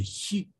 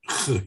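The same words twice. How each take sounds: First: «хи» as a soft, high fricative with an i; demonstrated soft «хи» sound; alternative eastern pronunciation. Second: «х» as a bare rough back-of-the-throat fricative; demonstrated harsh «х» sound; eastern pronunciation. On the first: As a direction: say «хи» lightly and quietly, further forward in the mouth. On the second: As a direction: rasp «х» alone, with no vowel after it. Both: Shown as a demonstration. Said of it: "произносится как".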